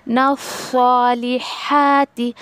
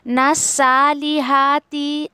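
First: ना सालिहाती recited slowly, the सा softened and the ending falling; slow careful tajweed on ना सालिहाती; correct recitation. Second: ना सालिहाती with the ना dragged out very slowly; slow wrong drawl on ना सालिहाती; wrong recitation. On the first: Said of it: "इस तरीके से". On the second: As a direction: stretch ना far too long, the way not to read it. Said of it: "ऐसे कोई भी नहीं पढ़ेगा". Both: Shown as a demonstration.

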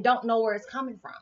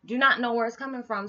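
First: Said in the usual way. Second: "Do not know" split apart with "not" hit; stress on not. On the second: Shown as a demonstration. Repeating for viewers, stressing "not". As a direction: lean hard on "not".

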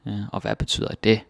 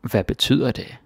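First: "det" stressed at the end, said fast. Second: "betyder" stressed in "Hvad betyder det?". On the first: Teacher showing a second way to stress the question. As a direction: hit the final det. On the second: Teacher showing where the stress falls in the question. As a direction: lean on betyder. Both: Shown as a demonstration. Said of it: "play around with the stress".

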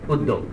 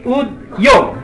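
First: উদ্যোগ said softly with a doubled d, "ud-dog"; spoken pronunciation. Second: Slow উদ্যোগ with a clear dy glide, "ud-jog"; spelling pronunciation. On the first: Lecturer giving the everyday উদ্যোগ, soft ud-dog. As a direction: say উদ্যোগ quietly the usual way, ud-dog. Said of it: "কিন্তু বলি উদ্যোগ". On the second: Lecturer mocking the spelled-out উদ্যোগ, slow ud-jog. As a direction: drag out উদ্যোগ slowly, sounding its spelling ud-jog. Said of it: "লিখি উদ্যোগ". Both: Shown as a demonstration.

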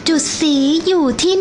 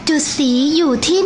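The two takes are said the same way.

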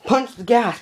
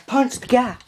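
First: Put-on kids yelling. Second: High, urgent yell; kids yelling. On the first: Kids in the truck urging the driver on, yelling high. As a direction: shout it like a kid egging on the driver. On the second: Retold or imitated. Kids in the truck urging the driver on again, yelling high. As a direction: keep yelling like an excited kid. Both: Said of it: "The kids start yelling".

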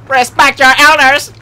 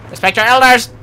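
First: Louder scolding yell. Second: Scolding yell. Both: Acted.

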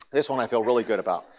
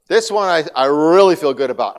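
First: Said in the usual way. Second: Enthusiastic. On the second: Real, not acted.

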